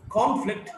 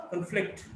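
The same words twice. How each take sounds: First: "conflict" as CON-flict; stress on first syllable. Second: "conflict" as con-FLICT; weak start, strong FLICT in "conflict"; stress on second syllable. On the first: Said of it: "stressed in the first syllable". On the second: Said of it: "stressed in the second syllable". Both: Shown as a demonstration.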